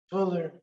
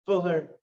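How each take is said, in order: Both takes have the same delivery.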